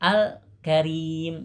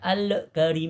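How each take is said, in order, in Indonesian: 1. Lam ditahan sebentar tanpa memantul. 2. Lam dilepas dengan gema yang memantul. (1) "Nah jadi gitu ya" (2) "jangan baca al karim, jangan ya"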